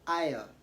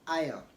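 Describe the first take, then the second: First: The S in the middle is silent. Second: The S in the middle is silent.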